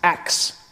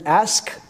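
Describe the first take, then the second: First: The k sound comes before the s. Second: The s sound comes before the k. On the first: The speaker calls it wrong. "pronouncing the word ask, ax" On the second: The speaker calls it right. "the word ask"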